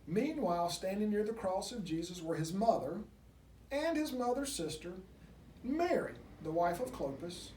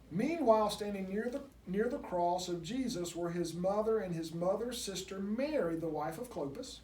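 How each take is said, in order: First: There is a pause between sister and Mary. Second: Sister Mary runs together as one name.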